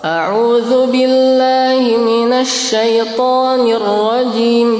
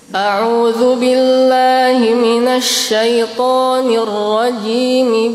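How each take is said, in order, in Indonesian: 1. Rajim berakhir dengan m tertutup, lalu ada jeda singkat. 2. Rajim langsung tersambung ke bismillah dengan vokal yang jelas.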